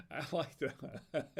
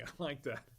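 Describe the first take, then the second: First: Slow, laughing through the words. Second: Said in the usual way. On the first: Real, not acted. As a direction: chuckle at your own joke as you say it. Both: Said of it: "I'm laughing at my own dad jokes".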